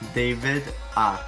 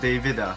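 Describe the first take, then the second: First: It is said slowly, the final a set apart. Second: It is said quickly, run together as one word.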